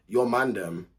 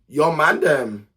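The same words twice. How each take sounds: First: Said in the usual way. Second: MAN THEM louder, higher and drawn out; slow, raised-voice insistence on "man them"; emphatic repeat. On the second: Real, not acted. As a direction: hammer home "man them", loud and slow. Repeats the remark with more force.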